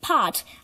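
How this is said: It is said with a British accent.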